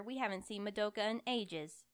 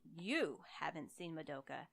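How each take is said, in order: First: Said in the usual way. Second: You said slowly and leaned on, haven't seen Madoka plain; correcting her, weight on you; stress on you. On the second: Acted. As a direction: hit the word you, slow and pointed.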